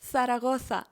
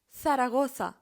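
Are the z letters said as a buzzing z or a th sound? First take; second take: th sound; th sound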